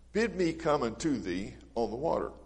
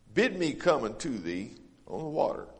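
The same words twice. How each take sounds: Both takes have the same delivery.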